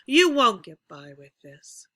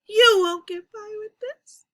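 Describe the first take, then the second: First: It fades from loud to soft at medium pitch. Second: It fades from loud to soft while pitch rises. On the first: "We're going to start loud, and we're going to go to soft, and we're going to um, be at about a medium pitch" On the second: "Let's raise the pitch as we lower the volume"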